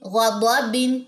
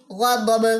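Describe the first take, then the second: First: غا ضا بن ending on a full -bin; with tanween. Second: غا ضب with the tanween dropped; waqf stop. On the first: Teacher reading the word with tanween to students. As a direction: keep the nun sound of بن. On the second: Teacher showing the waqf form, clipped ending. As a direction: stop on ضب, no nun. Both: Shown as a demonstration. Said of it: "دونوں زیریں drop کرنی ہے".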